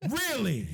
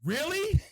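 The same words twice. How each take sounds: First: Falling "Really?", retold disbelief; unimpressed disbelief. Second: High rising "Really?", retold disbelief; incredulous reaction. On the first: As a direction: repeat it as a let-down, pitch dropping. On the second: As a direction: question it in mock disbelief, voice climbing. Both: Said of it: "I was like".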